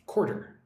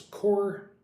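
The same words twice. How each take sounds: First: Said in the usual way. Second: Quarter said as two clear syllables, KOR-ter. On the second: Shown as a demonstration. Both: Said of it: "Pronounce it, like, with two syllables".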